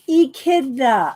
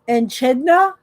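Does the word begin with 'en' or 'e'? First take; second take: e; en. First: The word begins with a plain 'e' sound. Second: The word begins with an 'en' sound. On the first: The speaker calls it right. "echidna is how you say it" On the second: The speaker calls it wrong. "Am I saying it right?"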